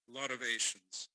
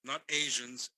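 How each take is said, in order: First: "Asians" as AY-shuns, clear sh in the middle; pronunciation joke. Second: "Asians" with a voiced zh sound, eɪʒənz, louder; "Asians" as AY-zhuns, buzzing zh, stressed; pronunciation joke. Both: Shown as a demonstration. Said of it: "I wasn't being racist, I was being literate".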